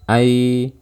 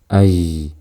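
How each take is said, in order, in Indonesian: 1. Tidak ada nafas yang terdengar bersama suara. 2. Nafas terdengar bersama suara. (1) "Kemudian saat sukun" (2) "Jangan seperti ini"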